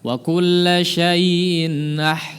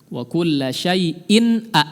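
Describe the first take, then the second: First: The vowel starts softly with no audible catch. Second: The vowel starts with a firm, audible catch. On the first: The speaker calls it wrong. "Jangan ... Enggak ada awalannya" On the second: The speaker calls it right. "A itu betul-betul tegas ya. Awalan suaranya terdengar"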